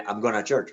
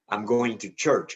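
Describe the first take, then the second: First: 'Going to' is reduced to 'gonna'. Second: 'Going to' is said in full. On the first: The speaker calls it wrong. "No, no, it, it, it's different" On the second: The speaker calls it right. "But I'm going to church is different"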